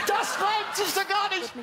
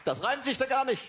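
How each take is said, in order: First: Outraged shout. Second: Indignant complaint. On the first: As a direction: yell the complaint up high and drawn out. Repeated complaint, much higher. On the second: Complaint about a bad rhyme. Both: Acted.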